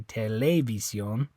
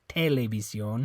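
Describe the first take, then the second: First: The stress is on the second syllable. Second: The stress is on the first syllable. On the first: "It's not that E. You don't say televisión" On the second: "it's not this E. You don't say televisión"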